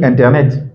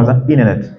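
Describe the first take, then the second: First: Said in the usual way. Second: American "Internet" with the t flapped away, like "inernet"; American accent, drop the t in "Internet"; American accent, "Internet" as "innernet". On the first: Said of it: "Quand tu vas dire Internet". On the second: Shown as a demonstration. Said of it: "lui va dire".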